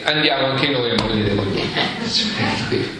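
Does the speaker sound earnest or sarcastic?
sarcastic. It is said in a sarcastic, complaining tone. The speaker resents being put in danger because of him. "si possono anche dare un'intonazione della serie"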